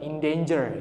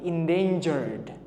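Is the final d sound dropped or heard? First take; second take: dropped; heard. First: The final d sound is dropped. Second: The final d sound is clearly heard. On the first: The speaker calls it wrong. "Bukan endanger ya" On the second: The speaker calls it right. "tapi endangered"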